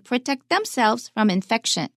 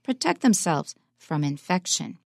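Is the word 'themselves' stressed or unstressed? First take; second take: stressed; unstressed. First: The word themselves is stressed. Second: The word themselves is unstressed. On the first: The speaker calls it wrong. "He didn't say protect themselves from infection. I think many Taiwanese might say it that way" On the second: The speaker calls it right. "Themselves is not stressed"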